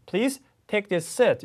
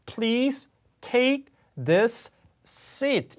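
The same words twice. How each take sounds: First: "Please take this seat" with "this seat" merged into one S, "thi-seat"; smooth linked "this seat", the right way. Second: "Please take this seat" very slow, word by word, the S sounds doubled; painfully slow, unlinked "this seat"; wrong, choppy. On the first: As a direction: join "this" and "seat" with a single S. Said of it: "이렇게 가야 되겠죠". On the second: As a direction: drag it out, separating every word, the wrong way. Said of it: "이렇게 할 수 없어요". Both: Shown as a demonstration.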